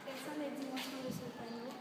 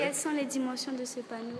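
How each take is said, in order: First: It is said quietly. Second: It is said loudly.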